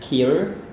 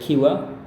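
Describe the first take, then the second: First: It is said with an American accent. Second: It is said with a British accent.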